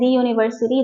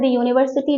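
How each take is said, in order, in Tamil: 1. 'the' என்ற சொல் 'thee' என்று, அழுத்தம் கொடுத்துச் சொல்லப்படுகிறது. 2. 'the' என்ற சொல் 'thuh' என்று, அழுத்தம் கொடுக்காமல் சொல்லப்படுகிறது. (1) "எம்பத்திக் யூசேஜ்ல" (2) "standard usage"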